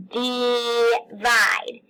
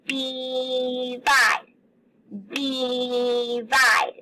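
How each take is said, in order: First: Divide with the I sounding like a long E, dee-vide; held-out syllables. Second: Divide with the first syllable held, dee-vide. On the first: Teacher showing the E sound in divide. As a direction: say divide stretching the first I as E. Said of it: "that I is actually making an E sound". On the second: Teacher showing how to split divide. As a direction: stretch the I in divide as an E sound. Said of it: "we say". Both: Shown as a demonstration.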